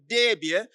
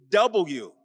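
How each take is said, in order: First: The letter is clipped to two syllables, 'dubya'. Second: The letter is said in full as 'double-u'. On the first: The speaker comes from Texas. The speaker calls it wrong. "I'm from Texas" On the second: The speaker fits the local station's way of speaking. The speaker calls it right. "learn how to say it differently"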